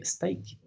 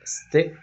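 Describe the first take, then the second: First: "steak" with a long ai vowel, wrong; wrong pronunciation. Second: "steak" with a short e, said louder; right short vowel. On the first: Teacher demonstrating the mistaken long vowel. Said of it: "esa no es la pronunciación correcta". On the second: Teacher demonstrating the correct short vowel, louder. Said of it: "suene corta". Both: Shown as a demonstration.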